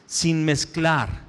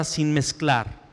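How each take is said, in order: First: Sin mezclar drawn out slowly, weight on sin; slow emphasis. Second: Sin mezclar said very slowly and deliberately, sin stressed; emphasized slowly. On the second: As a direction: stretch out sin mezclar to drive it home. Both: Shown as a demonstration. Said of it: "quiero enfatizar en la palabra".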